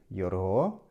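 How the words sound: The word begins with a y sound. This is the Ekhirit dialect form. "на ихиритском диалекте шесть будет йорго"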